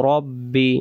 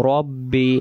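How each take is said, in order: No difference in how they are said.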